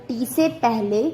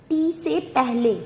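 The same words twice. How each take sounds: No difference in how they are said.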